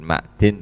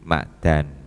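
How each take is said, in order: First: The vowel after the d is 'i'. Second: The vowel after the d is 'a'. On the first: "Bukan ma'din" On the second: "Bi fathid dali khale kawaca fathah dale ma'dan"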